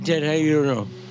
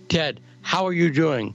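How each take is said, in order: First: It is said casually and loosely. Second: It is said carefully and articulately.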